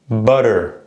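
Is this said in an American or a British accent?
American. The middle t is a quick flap, like d. "if you're doing an American accent"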